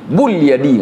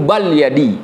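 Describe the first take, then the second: First: The first word has a u vowel. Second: The first word has an a vowel. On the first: "nggak boleh" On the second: "Nggak boleh dibaca"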